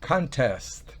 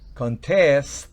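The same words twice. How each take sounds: First: The stress is on the first syllable. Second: The stress is on the second syllable. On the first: It is the noun meaning a competition. "el acento fonético está en la primera can" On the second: It is the verb meaning to dispute. "siempre el verbo lleva el acento en la última sílaba"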